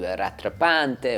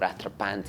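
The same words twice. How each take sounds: First: The word is said with an anglicized pronunciation. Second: The word is said with a French-style pronunciation. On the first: The speaker calls it wrong. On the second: The speaker calls it right.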